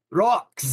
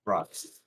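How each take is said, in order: First: Loud, punchy dwarf shout of one word; dwarf impression. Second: Said in the usual way. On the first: Player performs a dwarf for the barkeep, loud and gruff. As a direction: belt it out like a dwarf. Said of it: "impression of a dwarf saying rocks". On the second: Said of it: "how would Torbjorn say".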